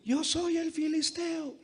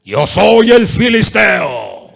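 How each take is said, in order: First: Much higher, slow, softer, put-on giant voice; a thin high giant, the take he rejects; wrong Goliath voice. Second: Slow, huge, much louder roar; Goliath's booming shout. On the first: Preacher's first try at Goliath, thin and high. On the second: Preacher shows Goliath shouting down his enemies, slow booming roar. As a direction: bellow it like the giant taunting Israel. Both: Shown as a demonstration.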